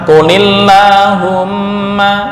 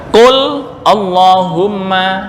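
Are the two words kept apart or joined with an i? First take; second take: joined; apart. First: The words run together with a linking i. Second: The two words are said separately, without a linking vowel. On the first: "dibaca qulillahumma"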